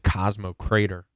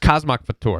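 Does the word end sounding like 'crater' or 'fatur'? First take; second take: crater; fatur. First: The word ends sounding like 'crater'. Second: The word ends sounding like 'fatur'. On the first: The speaker calls it wrong. "he mispronounced it. He said Cosmo Crater" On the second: The speaker calls it right. "That's how it's pronounced"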